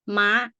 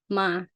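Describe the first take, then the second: First: The pitch is high and goes up. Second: The pitch stays level at mid height. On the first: "high tone it go like you know you see it goes straight up high" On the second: "middle tone"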